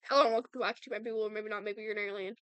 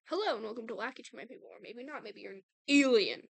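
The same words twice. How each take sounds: First: It is said fast. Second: It is said slowly.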